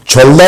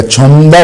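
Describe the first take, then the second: First: छोलदा said plainly as the letters look, with an L; the letter-by-letter reading छोलदा, to be rejected; wrong reading. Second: छमदा said slowly with M, chhom-da, falling at the end; slow it down and say छमदा, not छोलदा; correct reading. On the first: Teacher shows students the reading to avoid, plain letter-by-letter reading. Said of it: "ये छोलदा नहीं पढ़ा जाएगा". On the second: Teacher gives students the correct Korean reading, slow and falling. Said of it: "छमदा पढ़ा जाएगा". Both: Shown as a demonstration.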